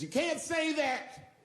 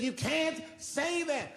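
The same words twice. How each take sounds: First: High, slow, drawn-out plea; hammed-up upset woman, high and slow; mock crying woman. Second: High, slow, whiny plea; hammed-up tearful woman, high and slow; mock crying woman. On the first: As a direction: imitate her tearful objection. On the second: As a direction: drag it out like a tearful heckler. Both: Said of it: "She says".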